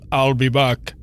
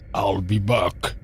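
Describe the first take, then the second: First: A voice a couple of semitones higher. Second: A deep, low-pitched, butch-sounding voice. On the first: "he's a couple of um, semitones higher than me. He goes" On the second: "he's got this very butch sounding voice, so I immediately went"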